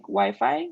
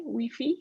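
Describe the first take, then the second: First: Wi-Fi said "why-fye"; English pronunciation. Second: Wi-Fi said "wee-fee"; Spanish pronunciation. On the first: Tutor giving the English example, Wi-Fi as "why-fye". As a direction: say Wi-Fi with English long I sounds. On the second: Tutor giving the Spanish example, Wi-Fi as "wee-fee". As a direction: say Wi-Fi with Spanish I sounds, both "ee". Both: Shown as a demonstration. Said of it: "so W, like Wi-Fi".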